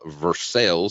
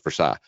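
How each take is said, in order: First: The name has its local pronunciation. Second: The name has its standard pronunciation. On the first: This is how people around here say it. The speaker calls it wrong. "That's how the rednecks pronounce it around here" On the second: This is the accepted way to say it. The speaker calls it right. "Proper pronunciation is Versailles"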